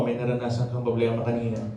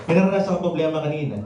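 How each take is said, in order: First: Said in the usual way. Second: Fast, slightly breathless repeat; quick repeat. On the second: Real, not acted. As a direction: rush the line again while catching your breath. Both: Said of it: "medyo hinihingal ako".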